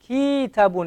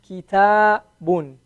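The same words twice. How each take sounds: First: The first syllable has the long vowel. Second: The second syllable has the long vowel. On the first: The speaker calls it wrong. "That's wrong because I elongated the, the, the calf instead" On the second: The speaker calls it right. "The elongation is only on the ta"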